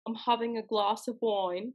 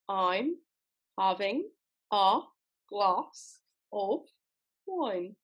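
First: The sentence is spoken at a normal pace. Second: The sentence is spoken slowly.

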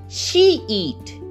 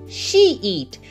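No difference in how they are said.

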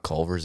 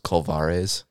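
First: The name is said in a plain, ordinary way. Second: The name is said with an exotic, foreign-sounding flourish. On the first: It is just the ordinary restaurant. "it's not Culver's" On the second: It makes the restaurant sound fancy. "it's Culvares"

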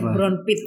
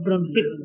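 First: The middle consonant is a p sound. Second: The middle consonant is an f sound. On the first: This is how Sundanese speakers say it. "So they say brown pit" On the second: This is the original Dutch form. "instead of brown fit"

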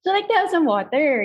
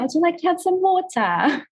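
First: It is said in a Filipino accent. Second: It is said in an accent adjusted for British listeners.

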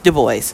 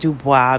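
First: The name is said with an American pronunciation. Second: The name is said with a French pronunciation. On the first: "he pronounced it in an Americanized way" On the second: "some pronounce it Dubois because that's the French way"

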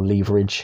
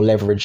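First: The word is said with a non-American pronunciation. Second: The word is said with an American pronunciation. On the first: The speaker calls it right. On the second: The speaker calls it wrong.

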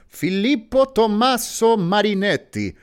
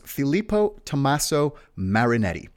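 First: The name is said in an Italian accent. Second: The name is said in a plain accent.

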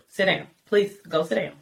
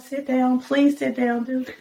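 First: It is said firmly and sternly. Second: It is said quietly and gently.

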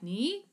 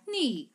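First: The pitch rises upward on the syllable. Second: The pitch falls from high to low. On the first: "whether it goes up like ni" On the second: "or top to the bottom like ni"

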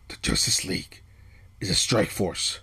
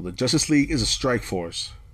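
First: It is said in a put-on Batman voice. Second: It is said in the speaker's normal voice.

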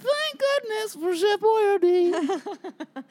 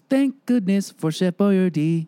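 First: It is said in a little boy voice. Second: It is said in his normal adult voice.

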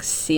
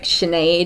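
First: The name is said as it is spelled. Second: The name is said the Irish way. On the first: This follows the written spelling. "they're like spelt like Sinead" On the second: This is how the name is actually said. "names like Sinead"

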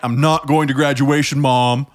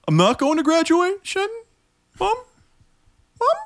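First: It ends with a firm, falling statement tune. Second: It ends with an unsure, rising question tune.

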